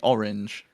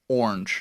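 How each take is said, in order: First: It is said with a British pronunciation. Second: It is said with an American pronunciation. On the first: "we say orange" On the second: "A lot of Americans I've heard say orange. It's like one word"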